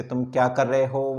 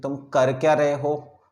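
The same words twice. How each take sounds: First: Said in the usual way. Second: Slow, क्या stressed in irritation; irritated question leaning on क्या. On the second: Shown as a demonstration. Teacher showing students the angry form, क्या stressed. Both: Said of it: "जब आपको anger show करना हो".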